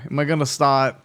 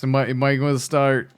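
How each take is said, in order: First: "start" said as "staht", no R; dropped R. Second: Said in the usual way. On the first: Shown as a demonstration. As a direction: drop the R in "start". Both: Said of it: "mispronouncing my R's and everything?".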